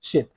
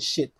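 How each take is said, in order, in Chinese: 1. 这个元音听起来像 'it' 中的 'i'。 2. 这个元音听起来像 'it' 中的 'i'。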